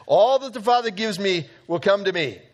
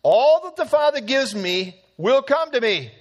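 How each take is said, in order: First: Said in the usual way. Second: All hit high and loud; All said higher and louder; stress on All. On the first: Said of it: "really emphasized here". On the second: Shown as a demonstration. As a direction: lean hard into All. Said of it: "know what He says".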